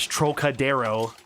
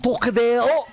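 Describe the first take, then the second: First: It is said with an American accent. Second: It is said with a French accent. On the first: "I'm gonna butcher this" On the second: "you hear someone in French like"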